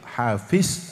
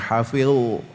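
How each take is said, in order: First: The word ends with a Z sound. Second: The word ends with an L sound. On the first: "hafiz Al-Quran begitu" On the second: "Tidak bilang hafil"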